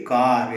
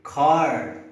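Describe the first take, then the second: First: Car with an unaspirated k; wrong way car. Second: Car with a strong aspirated k; car with a breathy puff on the k; right way car. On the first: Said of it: "You cannot say car". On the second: Teacher modelling the correct car, k aspirated. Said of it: "you have to say car". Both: Shown as a demonstration.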